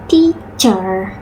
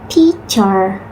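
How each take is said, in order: The two takes are said the same way.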